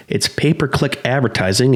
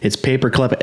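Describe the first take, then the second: First: Said in the usual way. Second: "paperclip" said for pay-per-click; tongue-tied slip. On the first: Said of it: "let me try that again". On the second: Real, not acted. Host flubbing the ad term, tongue-tied "paperclip". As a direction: trip over the term so it comes out "paperclip". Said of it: "I can't even talk".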